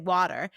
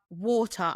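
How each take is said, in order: First: It is said in an American accent. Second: It is said in a British accent.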